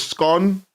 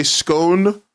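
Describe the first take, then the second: First: "scone" said to rhyme with gone; short vowel in "scone", like scon; correct scone. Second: "scone" said to rhyme with stone, drawn out; long vowel in "scone", like skone; wrong scone. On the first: Telling chat the right way to say it, short scon. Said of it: "The right way to say it is". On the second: Teasing chat about the wrong way to say it, skone, drawn out. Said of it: "If you say scone". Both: Shown as a demonstration.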